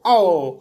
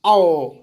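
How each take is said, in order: First: आ, ओ said as two separate, drawn vowels. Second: आओ said fast as one glide; quick aao. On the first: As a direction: pull apart आ and ओ slowly. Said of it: "देखो आ और ओ". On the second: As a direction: blend आओ quickly into one sound. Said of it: "अब इसको जल्दी पढ़ना है". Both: Shown as a demonstration.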